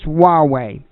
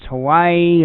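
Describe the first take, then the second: First: It sounds like wah-way. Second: It sounds like the word Hawaii. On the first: The speaker calls it right. "That's how it's pronounced" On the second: The speaker calls it wrong. "I've been saying, well, I don't know if it's Hawaii"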